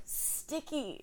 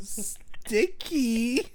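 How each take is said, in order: First: Drowsy, soft mumbled sticky; half-asleep murmur, barely awake; groggy mumble. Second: Deadpan it like the roommate; mock drowsy sticky. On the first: Retold or imitated. Roommate mumbling sticky half asleep, drowsy mumble. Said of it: "She goes". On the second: Friend teasing Ryan with the line, mock groggy. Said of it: "if I went up to you and I went".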